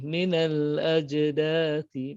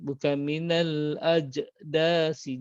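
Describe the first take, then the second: First: The consonant before the final vowel is 'th'. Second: The consonant before the final vowel is 's'. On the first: The speaker calls it right. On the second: The speaker calls it wrong.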